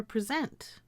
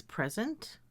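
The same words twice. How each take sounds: First: "present" stressed on second syllable; present as pre-ZENT. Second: "present" stressed on first syllable; present as PREZ-ent. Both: Shown as a demonstration. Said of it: "I can pronounce these words as".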